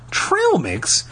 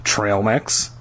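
First: High-pitched, disbelieving echo; incredulous. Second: Said in the usual way. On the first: A narrator's reading. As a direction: repeat it in disbelief, pitch jumping up. Lauren repeats in disbelief.

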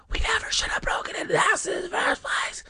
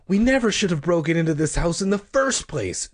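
First: Fast, breathy whisper. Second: Said in the usual way. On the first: A narrator's reading. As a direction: hiss it out under your breath. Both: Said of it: "Sherry whispered".

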